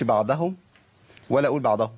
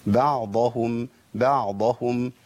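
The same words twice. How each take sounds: First: "بعضهم" said wrongly, ayn vanishing into the Dad; lost ayn, shaken Dad. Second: "بعضهم" slowly, clear ayn then full heavy Dad; separated, heavy Dad. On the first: Teacher showing what not to say, unsteady Dad. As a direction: let the Dad of "بعضهم" wobble loose from its place. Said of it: "والعين تختفي معايا والضاد إيه؟". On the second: Teacher modelling for students, highly emphatic Dad. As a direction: draw out "بعضهم", seating the open Dad fully. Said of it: "نفصل بين المخرج وتفخيم الضاد". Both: Shown as a demonstration.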